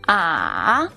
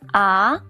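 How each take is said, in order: First: The pitch dips low, then rises again. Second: The pitch rises from middle to high. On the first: "ah is the third tone. The third tone falls first and then rises" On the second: "Ah is the second tone. The second tone is the rising tone"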